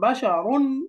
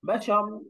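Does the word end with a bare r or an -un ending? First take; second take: -un ending; bare r. First: The word ends with an -un ending. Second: The word ends on a bare r sound. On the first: The reading continues without stopping. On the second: The reader stops on this word.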